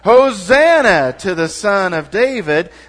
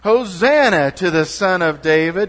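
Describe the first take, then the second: First: It is said loudly with great energy. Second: It is said with ordinary, modest energy.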